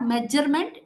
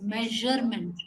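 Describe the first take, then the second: First: The middle consonant is a hard dj sound. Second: The middle consonant is a soft zh sound. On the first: The speaker calls it wrong. "not measurement" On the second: The speaker calls it right. "it is measurement"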